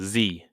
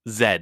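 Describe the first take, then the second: First: The letter is said the American way, as zee. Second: The letter is said the British way, as zed. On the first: "like an American" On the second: "like a British person"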